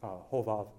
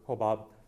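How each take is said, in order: First: The name is said with V sounds. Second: The name is said with B sounds. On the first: This is the modern Hebrew form of the name. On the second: This is the traditional English form of the name.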